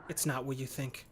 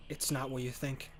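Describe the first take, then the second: No difference in how they are said.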